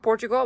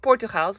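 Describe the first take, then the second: First: The name has an English pronunciation. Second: The name has a Dutch pronunciation. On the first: It names the country. The speaker calls it wrong. "Not Portugal" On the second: It names a local Dutch town. The speaker calls it right. "but Portugal, where near where I live"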